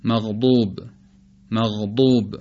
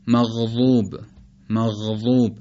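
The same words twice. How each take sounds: First: مغضوب with the ض as a heavy, emphatic d; modern ḍād. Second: مغضوب with the ض as a continuous emphatic ẓ, like ظ; Najdi-Iraqi ḍād. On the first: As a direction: say مغضوب with ض stopped hard like a thickened dāl. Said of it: "با ضاد جدید تلفظ بکنیم، یعنی شبیه دال". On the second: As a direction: say مغضوب with a buzzing, heavy dh for the ض. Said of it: "به لهجهٔ اهل نجد و عراق". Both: Shown as a demonstration.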